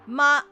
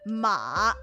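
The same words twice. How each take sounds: First: The pitch stays level and high. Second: The pitch dips low, then rises again. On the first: "it's a flat tone" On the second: "it goes down and then back up"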